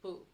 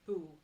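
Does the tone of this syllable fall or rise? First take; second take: rises; falls. First: The syllable has a rising tone. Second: The syllable has a falling tone. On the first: "boo has a rising tone" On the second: "that one has a falling tone instead"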